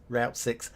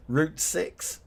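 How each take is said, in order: First: Route said like "rowt", rhyming with out; "Route" pronounced "rowt" the way viewers say it; American route. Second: Route said like "root", slow and drawn out; "Route" pronounced "root", rhyming with boot, said slowly; British route. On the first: Retold or imitated. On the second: Shown as a demonstration. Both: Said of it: "most of you say route".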